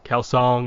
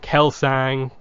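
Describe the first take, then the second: First: The last syllable has the vowel of 'song'. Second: The last syllable has the vowel of 'bang'. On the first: This is how the audiobook narrator says it. "Kelsong is the way she pronounces it" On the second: This is how the show says it. "it's Ang in the show"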